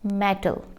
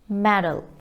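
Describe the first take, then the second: First: The middle consonant is a clear T sound. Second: The middle consonant is a soft D sound. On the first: The speaker calls it wrong. "ना के metal" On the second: The speaker calls it right. "It is medal"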